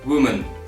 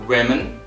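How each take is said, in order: First: The first vowel sounds like the one in 'wood'. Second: The first vowel sounds like the one in 'wig'. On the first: The speaker calls it wrong. "instead of woman" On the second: The speaker calls it right. "we pronounce it women"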